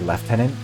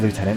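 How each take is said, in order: First: The word has the Canadian 'left-tenant' pronunciation. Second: The word has the American 'loo-tenant' pronunciation. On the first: "in Canada, and I believe also in the U K ... we say lieutenant" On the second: "for the Americans in the audience ... we don't say lieutenant"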